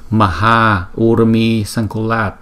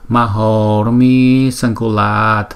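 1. Nguyên âm a và u vẫn tách riêng. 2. Nguyên âm a và u gộp thành o. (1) "Nhưng mà thực ra là maha urmi sankulat" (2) "khi người ta trì là người ta đọc là mahormi sankulat"

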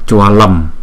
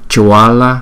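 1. Từ này kết thúc bằng âm m. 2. Từ này kết thúc bằng nguyên âm, không có m. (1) "Chúng ta không đọc là Chualam" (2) "mà chúng ta đọc là Chuala"

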